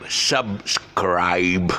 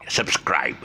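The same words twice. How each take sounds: First: "subscribe" split in two and stretched long on SCRIBE; stress on SCRIBE. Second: Said in the usual way. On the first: Shown as a demonstration. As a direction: spell out "subscribe" slowly as SUB, then a drawn-out SCRIBE. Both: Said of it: "Stress syllable is scribe".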